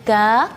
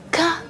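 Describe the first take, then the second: First: The consonant is said lightly and relaxed. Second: The consonant is said with exaggerated hissing force. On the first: The speaker calls it right. "huruf kaf ini tipis" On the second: The speaker calls it wrong. "Jadi tidak boleh berlebihan. ... ka itu tidak boleh"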